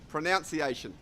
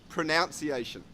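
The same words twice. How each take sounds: No difference in how they are said.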